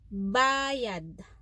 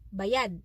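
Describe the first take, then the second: First: Said with the pronunciation meaning payment. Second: Said with the pronunciation meaning paid. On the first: It refers to a payment. "Payment, which is our Tagalog word" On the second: It means something has been paid.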